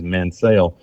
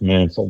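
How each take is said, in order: First: The name is said the newer way. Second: The name is said the traditional way. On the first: This is how later arrivals to the area say the name. "have changed the pronunciation as Mansell" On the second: This is how the family itself says the name. "It's pronounced Mansell. The family pronounces it Mansell"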